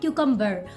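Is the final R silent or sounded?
sounded. The final R is clearly pronounced. "if you're working on your American pronunciation, then you can call it cucumber"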